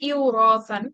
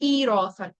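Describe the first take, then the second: First: The word starts with an 'iw' glide. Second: The word starts with a long 'ee' sound. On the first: The speaker calls it wrong. "যেটা একটা সমস্যা" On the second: The speaker calls it right. "এটাকে স্মুথ করার জন্য"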